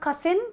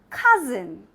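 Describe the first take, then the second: First: The middle consonant is a hissing s sound. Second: The middle consonant is a buzzing z sound. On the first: The speaker calls it wrong. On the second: The speaker calls it right.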